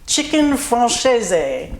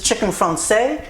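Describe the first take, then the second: First: The name mixes French and Italian sounds. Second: The name is pronounced the French way. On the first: "I kind of did a mix of the two" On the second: "French is"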